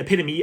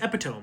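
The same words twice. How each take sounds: First: It is said in the usual way. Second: It is said the way it is spelled.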